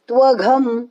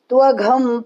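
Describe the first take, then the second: No difference in how they are said.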